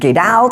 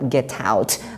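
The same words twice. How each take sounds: First: The t is pronounced as a soft d. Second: The t is pronounced as a clear t. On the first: "maka itu dibaca d" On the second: "Kalau orang Inggris tidak, tetap get out"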